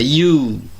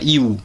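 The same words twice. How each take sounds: First: The vowel is said long and drawn out. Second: The vowel is said short and clipped. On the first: The speaker calls it right. "é you. O u é extenso" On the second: The speaker calls it wrong. "não é you"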